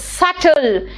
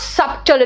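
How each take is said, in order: First: The b sound is silent. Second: The b sound is pronounced. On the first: The speaker calls it right. "It is सटल" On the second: The speaker calls it wrong. "This is not सब्टल"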